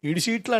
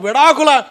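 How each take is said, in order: First: The word is garbled as 'idi seetlu'. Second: The word is said clearly as 'vidaakula'. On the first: The speaker calls it wrong. "అది పలకడం కూడా రాదు వీడికి" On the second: The speaker calls it right. "ఓహో విడాకుల"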